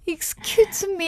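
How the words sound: It sounds pleading and desperate.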